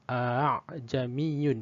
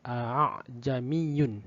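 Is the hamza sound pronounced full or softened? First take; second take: softened; softened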